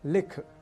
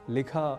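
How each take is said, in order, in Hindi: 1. शब्द kh व्यंजन पर समाप्त होता है। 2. शब्द एक छोटे अ स्वर पर समाप्त होता है।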